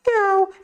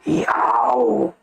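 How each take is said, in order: First: It is voiced like a baby's cry. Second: It is voiced like a lion's roar. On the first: "no chorinho de uma criança" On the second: "o leão ruge assim"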